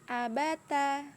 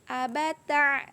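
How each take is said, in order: First: The end flows freely without constriction. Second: The end has an added throaty constriction. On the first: The speaker calls it right. "Bacaan yang benar" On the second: The speaker calls it wrong. "bacaan yang salah atau yang ujungnya ada ain sukun"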